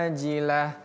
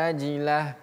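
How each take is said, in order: The two takes are said the same way.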